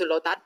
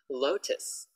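First: The word ends with a t sound. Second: The word ends with an s sound. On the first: The speaker calls it wrong. "I often hear people go, oh, go to Lotat" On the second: The speaker calls it right. "Lotus, not Lotat"

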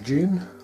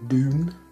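First: The word is pronounced in a British way. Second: The word is pronounced in an American way.

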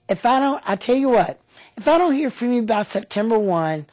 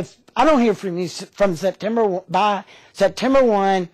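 First: The tone sounds friendly and positive. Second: The tone sounds pushy and aggressive. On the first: The caller is politely giving notice. The speaker calls it right. "it's also your tone of voice. If you say it like this" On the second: The caller seems to be making a demand. The speaker calls it wrong. "think that that may be pushy or aggressive by saying"

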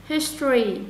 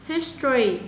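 No difference in how they are said.

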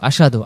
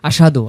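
The two takes are said the same way.

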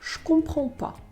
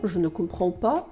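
First: Ne is dropped and je becomes a sh sound. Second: Every word is said in full, including ne. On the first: "«Je» перетворюється взагалі звук «ш»" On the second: "Але це дуже довго для французів"

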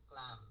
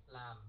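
Both takes have the same delivery.

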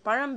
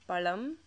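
First: The middle consonant is an R-like sound. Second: The middle consonant is a plain L sound. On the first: The speaker calls it right. "it ends with that ra sound" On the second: The speaker calls it wrong. "they instead say Tamil or palam"

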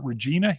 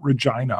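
First: The name does not rhyme with 'vagina'. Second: The name rhymes with 'vagina'. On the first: The speaker calls it wrong. "I used to try to pronounce it Regina" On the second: The speaker calls it right. "it's like it's vagina"

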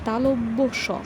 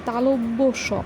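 First: It is said as 'talabya', then a separate 'sha'. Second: It is said as 'talabya', then a separate 'sha'.

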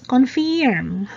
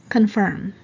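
First: The word is said in a nonstandard way. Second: The word is said in the standard way. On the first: The speaker calls it wrong. "But Becky language is confirm" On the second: The speaker calls it right. "the right pronunciation is confirm"

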